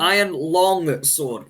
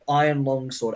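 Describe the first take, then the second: First: The word 'long' has its ordinary vowel. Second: The word 'long' sounds close to 'lung'. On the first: The speaker calls it right. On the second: The speaker calls it wrong.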